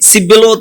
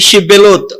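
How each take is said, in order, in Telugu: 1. ఈ పదం సాధారణ s శబ్దంతో మొదలవుతుంది. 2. ఈ పదం sh శబ్దంతో మొదలవుతుంది. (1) "సి ఆ వాడతాడే గాని, సిబ్బెలోత్ అంటాడే గాని" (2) "షిబ్బెలోత్ అనే మాట వాడలేడు"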